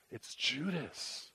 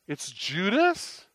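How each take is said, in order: First: Very soft, slow, falling statement; hushed realization. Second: Slow, drawn-out rise to a high ending; incredulous question. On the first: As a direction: let the recognition sink in, almost under the breath. Acted recognition of the betrayer. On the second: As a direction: repeat it in disbelief, stretching the name upward. Acted disbelief at seeing Judas. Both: Acted.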